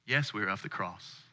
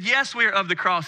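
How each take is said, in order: First: Low, unsure murmur; hesitant and quiet. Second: Confident, clear reply; firm and sure. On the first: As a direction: answer tentatively, under the breath. Hesitant answer to stranger. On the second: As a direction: say it boldly, with conviction. Firm answer to stranger. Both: Retold or imitated.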